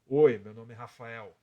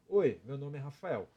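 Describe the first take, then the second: First: The voice is thicker and deeper, from the chest. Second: The voice is plain and comes from the mouth. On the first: "Agora eu vou tirar a voz de peito" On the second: "vou fazer normal igual no português"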